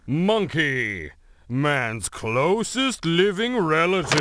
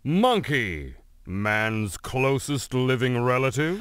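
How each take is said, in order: First: The voice falls at the end like a statement. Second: The voice rises at the end like a question. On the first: It sounds like a statement. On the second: It sounds like a question.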